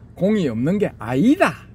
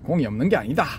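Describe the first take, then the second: First: It is said in a Gyeongsang regional accent. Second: It is said in a plain standard accent. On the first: "경상도 말투" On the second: "가 아니고"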